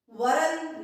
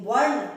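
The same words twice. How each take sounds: First: वर्ण said slowly with a dental न at the end; the wrong way, dental n; teacher showing the error; wrong varn, dental n. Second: वर्ण with a curled retroflex ण, louder; teacher giving the right form; correct retroflex varn. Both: Shown as a demonstration. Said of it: "वर्ण नहीं".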